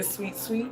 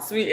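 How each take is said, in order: First: Sweet, sweet much softer, with a lilting rise; soft sing-song sweet. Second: Said in the usual way. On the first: Shown as a demonstration. Showing viewers how the pet name sounds, hushed and cooing. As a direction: breathe sweet, sweet out like a coo. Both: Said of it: "I don't even say sweet".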